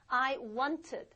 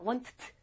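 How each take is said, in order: First: The ending is pronounced as an extra syllable. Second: The ending is a bare consonant, no extra syllable. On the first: The speaker calls it right. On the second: The speaker calls it wrong.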